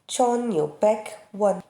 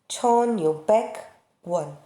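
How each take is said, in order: First: It is said slowly, with a pause inside. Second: The same.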